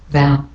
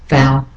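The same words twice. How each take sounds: No difference in how they are said.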